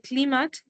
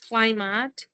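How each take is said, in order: First: The word is said with the learner's pronunciation. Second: The word is said with the standard pronunciation. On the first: This is how the student said it. The speaker calls it wrong. "You say climate" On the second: This is how it should be said. The speaker calls it right. "that is climate"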